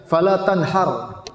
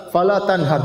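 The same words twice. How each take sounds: First: "Fala tanhar" slow, with an exaggerated throaty h; mock an over-eloquent reader slowly mangling "Fala tanhar"; "Fala tanhar" drawn out, with the h that means slaughter; overdone misreading. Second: "Fala tanhar" with a breathy pharyngeal H; "Fala tanhar" recited with the Arabic ḥa sound; correct Arabic h. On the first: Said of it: "saking fasihnya, dia baca". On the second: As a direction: read "Fala tanhar" properly with the big H. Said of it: "harusnya pakai H besar". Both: Shown as a demonstration.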